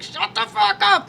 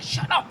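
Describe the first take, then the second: First: High, slow, strained mock command; retold furious comeback. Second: Higher, softer mock command; retold hushed snap. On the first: Woman acting out her comeback to partner, drawn-out exasperation. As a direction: draw out each word in mock exasperation. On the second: Woman retelling her fight with her partner, hushed telling-off.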